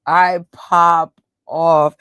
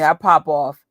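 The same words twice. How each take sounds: First: Slow, louder, tough New York attitude; popping off. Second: Said in the usual way. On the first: Shown as a demonstration. Showing her tough side, slow and louder. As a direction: drag it out like you're ready to fight. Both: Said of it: "And then I have two tones".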